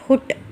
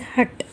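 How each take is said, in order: First: The vowel is a rounded 'oo'-like sound. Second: The vowel is a short open 'uh' sound. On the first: The speaker calls it wrong. "It is not hut" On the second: The speaker calls it right. "It is hut"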